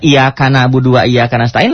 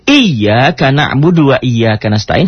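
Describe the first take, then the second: First: The y sound is short and single. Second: The y sound is held long and doubled. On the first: It means something about the sun instead. The speaker calls it wrong. "Tapi kalau dibaca ... lain. Itu ada maknanya matahari" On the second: Only to you we worship and ask for help. The speaker calls it right. "hanya kepadamu kami beribadah dan hanya kepadamu kami minta tolong"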